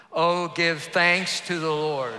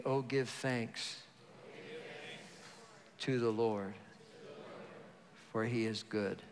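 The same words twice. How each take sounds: First: Much louder, slow proclaiming. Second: Said in the usual way. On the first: Shown as a demonstration. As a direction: lift it up, louder and slower. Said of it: "Say it louder". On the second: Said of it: "Say it with me".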